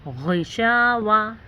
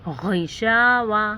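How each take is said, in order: Both takes have the same delivery.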